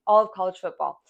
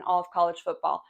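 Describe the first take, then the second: First: "all of college football" repeated a bit louder, leaning on "all"; stress on all. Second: Said in the usual way. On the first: Shown as a demonstration. Repeating to fans that "all" means more than the SEC, leaning on "all". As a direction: hit "all" hard. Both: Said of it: "I don't just say the S E C".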